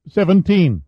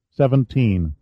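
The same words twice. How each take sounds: First: Put-on higher boy's voice saying Seventeen; adolescent voice. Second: Said in the usual way. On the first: A narrator's reading. Teenage sailor tells the captain his age: Seventeen, in a higher boy's voice. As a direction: answer Seventeen like a young teenage boy. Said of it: "The voice had an adolescent pitch". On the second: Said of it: "A mere seventeen years old".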